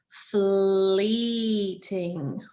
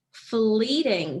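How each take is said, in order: First: "fleeting" very slow, long ee then ting; stretched new vowel. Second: Said in the usual way. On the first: Shown as a demonstration. Teacher changing the O to E for the class, "fleeting" stretched out. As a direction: draw out the ee in "fleeting", separating the syllables. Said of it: "to E". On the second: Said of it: "What is that new word".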